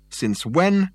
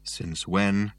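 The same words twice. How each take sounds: First: Sharply higher, scornful "Since when?"; derisive question. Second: Abject. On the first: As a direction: fling "Since when?" back with contempt. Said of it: "in a voice ringing with derision". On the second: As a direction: answer "Since when," crushed and defeated. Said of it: "said the ghost abjectly". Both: A narrator's reading.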